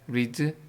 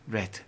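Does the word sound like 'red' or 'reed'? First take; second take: reed; red. First: The vowel is long, like 'reed'. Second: The vowel is short, like 'red'. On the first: It is the present form of the verb. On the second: It is the past form of the verb.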